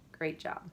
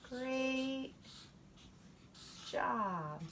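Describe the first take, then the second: First: It is said flatly without emotion. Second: It is said with excited emotion. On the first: "They're not just going to say great job" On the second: "Showing feeling means we get an exclamation mark"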